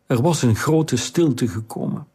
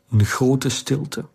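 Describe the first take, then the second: First: "was" lifted and stressed, "grote stilte gekomen" falling away. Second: "grote stilte" stretched, slow, with weight on "grote"; slow emphasis. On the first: Narrator affirming the calm truly came, stressing "was". Narrator restates with new weight. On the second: Narrator savouring the calm after the storm, stressing "grote". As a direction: linger on "een grote stilte", leaning on "grote". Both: A narrator's reading.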